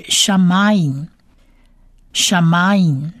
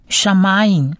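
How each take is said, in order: First: "shamayim" said slowly, syllables pulled apart; teacher modelling "shamayim" slowly, syllable by syllable; slow full word. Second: Said in the usual way. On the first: Shown as a demonstration. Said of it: "这整个字发起来就是". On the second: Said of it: "发起来就是".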